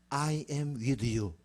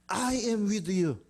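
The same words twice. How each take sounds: First: Very slow, measured promise; solemn declaration. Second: Very slow, raised-pitch proclamation; emphatic declaration. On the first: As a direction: draw each word out slowly and solemnly. God's promise, slowly declared. (아주 천천히 엄숙하게) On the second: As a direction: proclaim it higher, drawing out each word. Promise repeated higher for emphasis. (높은 음으로 천천히 선포하듯) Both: Acted.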